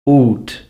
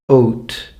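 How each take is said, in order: First: The vowel is pronounced as in the 1400s. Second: The vowel is pronounced as in the 1500s. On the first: "the way they would be pronounced in the fourteen hundreds" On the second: "fifteen hundreds"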